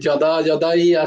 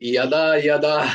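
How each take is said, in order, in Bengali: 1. শব্দটি J ধ্বনি দিয়ে শুরু হয়। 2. শব্দটি Y ধ্বনি দিয়ে শুরু হয়। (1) "এখনো আহ, যদা যদাই আসছে" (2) "ইয়াদা ইয়াদা শুনতে পাচ্ছি না"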